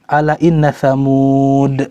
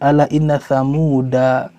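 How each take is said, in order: First: The final word ends on a consonant, no vowel. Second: The final word ends with an added a vowel. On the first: The speaker calls it right. "Kalau kita berhenti ala inna samud, tetap tidak dibaca" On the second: The speaker calls it wrong. "bukan ala inna samuda"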